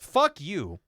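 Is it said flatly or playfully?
flatly. It is said flatly, like a downer.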